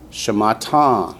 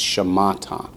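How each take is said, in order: First: The last syllable is strongly stressed. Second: The last syllable is only lightly stressed. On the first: The speaker calls it wrong. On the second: The speaker calls it right.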